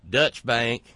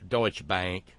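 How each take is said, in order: First: Deutsche is clipped short, like Dutch. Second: Deutsche is said in full, carefully.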